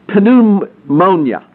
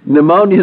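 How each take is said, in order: First: The initial P is sounded. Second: The initial P is silent. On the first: This follows the Greek origin of the word. "if you pronounce it with the P" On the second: This is the usual English pronunciation. "Pneumonia is the way we pronounce it"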